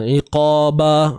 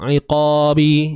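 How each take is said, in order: First: The final b is followed by an a vowel. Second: The final b is followed by an i vowel. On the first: "dia bukan begitulah, hindar" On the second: "dia bukan begitulah, hindar"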